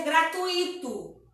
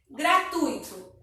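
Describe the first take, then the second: First: Gratuito as gra-tu-I-to, stress on I; common mispronunciation. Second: Slow gratuito, gra-TUI-to; correct pronunciation. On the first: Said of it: "as pessoas costumam dizer". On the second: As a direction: stress the U in gratuito, UI together. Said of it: "a vogal mais forte é o U". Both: Shown as a demonstration.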